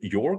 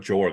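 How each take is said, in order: First: The name begins with a Y sound. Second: The name begins with a J sound. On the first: The speaker calls it right. "because that's official author approved pronunciation" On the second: The speaker calls it wrong. "the J has become as Jorg"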